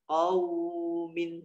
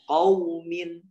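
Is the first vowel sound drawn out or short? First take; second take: drawn out; short. First: The vowel in the first syllable is held long. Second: The vowel in the first syllable is said quickly. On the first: The speaker calls it wrong. "nggak boleh" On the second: The speaker calls it right. "cepat ya"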